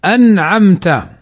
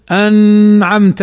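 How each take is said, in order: First: Slow "أنعمت", clear n released straight into the ayn; correct izhar. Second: Slow "أنعمت", its n stretched through the nose, as a mistake; wrong nasalized demo. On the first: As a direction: say "أنعمت" with no hum on the n. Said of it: "لا، وإنما نقول". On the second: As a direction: hold a long humming n in "أنعمت" before the ayn. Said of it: "أو نغن الحرف بأن نقول". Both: Shown as a demonstration.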